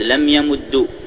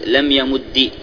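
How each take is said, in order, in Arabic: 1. ينتهي الفعل بالحركة u. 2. ينتهي الفعل بالحركة i.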